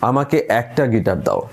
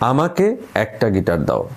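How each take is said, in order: First: The stress is on the second word. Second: The stress is on the first word. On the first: It sounds like a request. "দ্বিতীয় শব্দটায় জোর দিলে কি হয়" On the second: It must be given to me specifically. "এখন আমি যদি প্রথমটায় জোর দিই"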